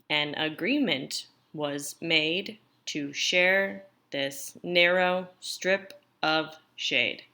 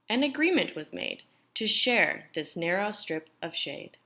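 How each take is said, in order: First: It is read far too slowly. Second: It is read at a moderate pace.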